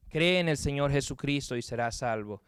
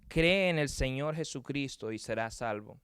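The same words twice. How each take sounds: The two takes are said the same way.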